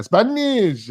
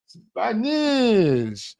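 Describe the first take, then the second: First: Said in the usual way. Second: A higher, drawn-out, hammed-up Spanish accent on "Spanish"; mock Spanish accent. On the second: Vlogger jokingly tries a Spanish accent on the word, mock Spanish accent. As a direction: say "Spanish" with a put-on Spanish accent, pitched up. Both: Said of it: "Spanish accent".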